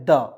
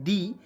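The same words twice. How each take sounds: First: द with a short "uh" vowel; द, short open vowel, no "ee"; alternative pronunciation. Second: दी with a long "ee" vowel; दी rhyming with "see"; alternative pronunciation. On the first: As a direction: say द as "duh", dental d. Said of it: "और एक होता है द". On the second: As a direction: say दी as "dee", dental d. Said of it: "यहाँ पे दी पढ़ भी सकते हैं". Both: Shown as a demonstration.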